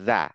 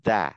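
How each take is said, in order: First: The syllable starts with a d-like sound. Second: The syllable starts with a d-like sound.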